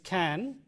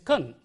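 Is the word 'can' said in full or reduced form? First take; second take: full; reduced. First: The vowel is full and clearly pronounced. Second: The vowel is weakened to a short schwa. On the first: "The strong form is" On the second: "The weak form is"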